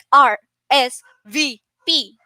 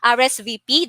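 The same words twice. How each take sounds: First: Each letter is said separately with breaks. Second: The letters are run together without breaks. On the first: The speaker calls it wrong. "we don't say like R S V P, like word per word" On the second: The speaker calls it right. "we should um connect those, okay, together. That's how we pronounce it"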